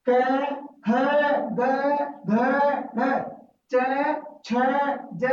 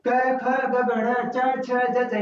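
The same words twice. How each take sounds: First: क, ख, ग each said alone with a clear pause between; one letter at a time. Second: Letters rattled off in one quick breath; run together like children. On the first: Teacher showing the new way, saying each letter separately. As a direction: space every letter out, one by one. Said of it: "इसमें थोड़ा सा हटके बोलेंगे". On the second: Teacher showing how children rattle off the letters in a run. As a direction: recite क ख ग in one continuous run, as children chant it. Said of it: "बच्चे इस तरीके से बोलते हैं". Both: Shown as a demonstration.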